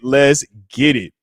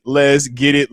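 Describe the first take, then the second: First: Slower, savoring hype; slow let's get it. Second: Said in the usual way. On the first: Real, not acted. Streamer hyping viewers, slow drawn-out let's get it. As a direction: draw it out slowly.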